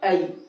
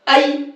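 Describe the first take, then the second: First: It is said softly and gently. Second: It is said hard and forcefully. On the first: The speaker calls it right. "नरमी से पढ़ा है" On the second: The speaker calls it wrong. "ये सख्ती से हो जाएगा"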